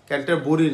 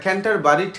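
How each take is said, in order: First: The second part is said like 'buri'. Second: The second part is said like 'bari'. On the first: The speaker calls it wrong. "ক্যান্টার বুড়ি না" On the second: The speaker calls it right. "ক্যান্টার বুড়ি না, হ্যাঁ ঠিক আছে"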